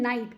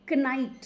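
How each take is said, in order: First: The word starts with an n sound, no k. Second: The word starts with a k sound before n. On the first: This is how the word is said today. "अब हम के को silent कर देते हैं" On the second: This is how the word was said in the past. "पहले उसको हम के के साथ प्रोनाउंस करते थे"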